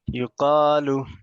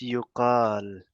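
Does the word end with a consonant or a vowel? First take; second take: vowel; consonant. First: The word ends with a short vowel. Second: The word ends on a bare consonant. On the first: The reading continues without stopping. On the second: The reader stops at this word.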